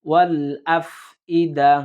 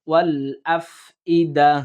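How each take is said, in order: Both takes have the same delivery.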